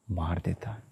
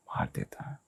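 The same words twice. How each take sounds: First: Said in the usual way. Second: Whisper. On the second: Shown as a demonstration. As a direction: whisper मार देता है under the breath. Speaker repeats the key phrase, hushed. (मार देता है फुसफुसाकर)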